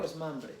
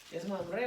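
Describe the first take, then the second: First: "Mamre" stressed on the first a; front-stressed "Mamre", the alternative pronunciation; stress on first syllable. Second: "Mamre" stressed on the final e; end-stressed "Mamre", testing the pronunciation; stress on final syllable. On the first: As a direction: say "Mamre" as MÁM-re. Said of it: "¿Con acento en la A?". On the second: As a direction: say "Mamre" as mam-RÉ. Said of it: "No tiene acento, ¿cómo es?". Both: Shown as a demonstration.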